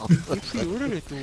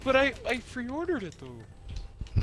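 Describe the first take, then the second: First: Put-on slow, loud, high Canadian accent; exaggerated Canadian accent. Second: Put-on Canadian accent. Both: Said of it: "Why do you turn Canadian?".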